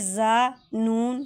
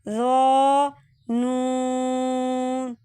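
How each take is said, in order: First: The first letter is said thin and light. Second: The first letter is said heavy and full. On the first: The speaker calls it wrong. "जा नून नहीं पढ़ा" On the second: The speaker calls it right. "इसको मोटा करके पढ़ा"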